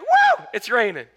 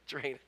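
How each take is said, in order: First: It is said with cheerful excitement. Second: It is said in a glum, flat way.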